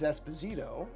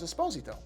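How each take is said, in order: First: The surname is said in a non-Italian way. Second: The surname is said in the Italian way. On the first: The speaker calls it wrong. "often mispronounced as Esposito" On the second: The speaker calls it right. "The Italian pronunciation of the last name is Esposito"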